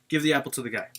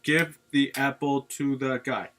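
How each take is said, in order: First: The words are run together as one unit. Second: Each word is said separately and in full. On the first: The speaker calls it right. "say it like in one" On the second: The speaker calls it wrong. "don't read it like"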